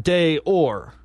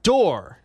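First: "day or" as two separate words; wrong version, "day or" in two beats; mispronunciation shown. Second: "door" as one syllable; French pronunciation. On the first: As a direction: split it into "day" and "or". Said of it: "not day or". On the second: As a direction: say "door" as a single smooth word. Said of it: "is pronounced door". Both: Shown as a demonstration.

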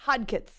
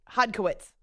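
First: "Hodkitz", stumbled into two syllables; mispronounced name. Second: Said in the usual way. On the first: Real, not acted. Host fumbling a guest's surname, mispronounced "Hodkitz". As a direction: say "Hodkitz", dropping the middle syllable. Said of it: "wait, Hodkowitz". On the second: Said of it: "it's really not that hard".

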